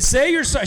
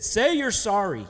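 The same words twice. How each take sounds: First: Higher, louder furious mom order; angry mom demand. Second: Mad mom. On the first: Mom to defiant son, a higher, louder furious demand. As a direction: bark it like a mom out of patience. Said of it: "And she said". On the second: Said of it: "my mom was so mad at me". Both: Retold or imitated.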